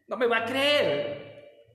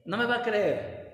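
First: Drawn out, louder teasing promise; slow emphatic tease. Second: Said in the usual way. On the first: Shown as a demonstration. Preacher teasing congregation, slow and emphatic. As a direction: savor each word, slow and loud.

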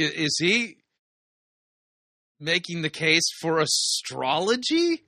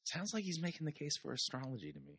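First: Slow, drawn-out disbelief with rising end; incredulous question. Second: Very soft, quick aside; muttered aside. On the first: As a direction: stretch it into a puzzled question. Incredulous reaction to played clip. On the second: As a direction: mutter it fast under your breath. Muttered answer to own question. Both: Real, not acted.

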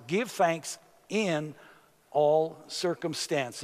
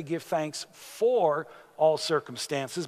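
First: Slow, weighty "Give thanks in all circumstances" with "all" leaned on; stress on in all. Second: Slow, the word "for" stressed with a rising tune. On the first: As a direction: lean on the words "in" and "all". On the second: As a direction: make "for" stand out as the wrong word. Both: Shown as a demonstration. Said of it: "He doesn't say".

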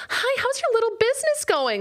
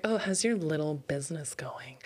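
First: Very high, louder saccharine voice; sugary fake friend. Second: Unvoiced, condescending whisper of a question; snide whisper. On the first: A fake-nice acquaintance mocking your business, high saccharine chirp. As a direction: chirp it with fake sweetness to belittle. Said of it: "that way so intentionally". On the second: A condescending acquaintance to a small business owner, whispered and snide. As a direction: breathe it out with fake sweetness. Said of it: "they're saying that, like, that way so intentionally".

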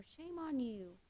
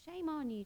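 First: Lighter mock scold. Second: Higher, sing-song finger-wagging scold; mock scolding. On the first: Imagined God repeating the shame, a softer mock scold. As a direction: let the reproach drop quietly. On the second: Imagined God scolding Tracy, higher mock reproach. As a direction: wag a finger at her in mock shame. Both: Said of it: "pointing the finger at us saying".

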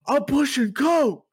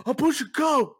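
First: Loud mock yell with pitch way up; imitated yell. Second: Loud high mock shout; deadpan yell. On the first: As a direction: belt it out like a deadpan clerk. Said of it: "he literally yells". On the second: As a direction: bark it with a straight face. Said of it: "He just".

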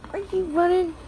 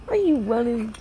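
First: Playful question. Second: Said in the usual way. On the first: Real, not acted. Asking child again, higher.

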